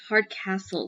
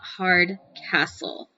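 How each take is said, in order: First: It is said smoothly as one word. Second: It is said as two separate words. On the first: The speaker calls it right. "like one word" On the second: The speaker calls it wrong. "not Hard Castle"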